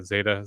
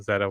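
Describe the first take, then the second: First: "Zeta" with first vowel as in "day"; long A pronunciation. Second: "Zeta" with first vowel as in "bed"; short E pronunciation. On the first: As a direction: say "Zeta" as ZAY-tuh. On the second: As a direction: say "Zeta" as ZEH-tuh. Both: Shown as a demonstration. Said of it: "or I'm saying that right".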